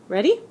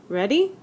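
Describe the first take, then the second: No difference in how they are said.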